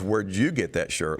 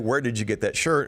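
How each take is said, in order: First: It sounds critical of the person asked. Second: It sounds neutral and matter of fact.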